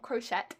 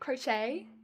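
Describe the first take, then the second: First: The word ends without an "ay" vowel sound. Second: The word ends with an "ay" vowel sound. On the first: The speaker calls it wrong. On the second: The speaker calls it right. "It sounds like A at the end"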